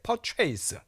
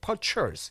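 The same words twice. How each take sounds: First: The second syllable sounds like the word chase. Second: The second syllable is a short, weak chis. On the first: The speaker calls it wrong. "많은 분들이 이 단어를 갖다가 purchase라고 발음하세요" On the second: The speaker calls it right. "purchase가 돼요"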